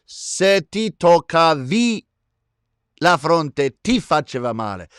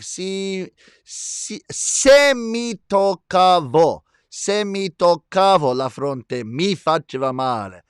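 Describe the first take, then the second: First: Emphatic, stretched Italian pronunciation; Italian accent. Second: Slow, drawn-out Italian pronunciation; Italian accent. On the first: Host explains the change when "you" touch your forehead, emphatic Italian accent. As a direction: demonstrate the Italian, drawing out "ti toccavi". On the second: Host explains verb changes for "I touch my forehead", slow Italian accent. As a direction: demonstrate the Italian slowly, leaning on "mi". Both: Shown as a demonstration. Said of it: "That's a good Italian accent".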